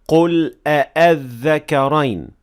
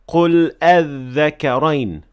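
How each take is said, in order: First: Both hamzas are fully pronounced. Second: The second hamza is completely dropped. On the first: "with two full Hamza" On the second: "with a completely hidden and removed Hamzat al-Wasl"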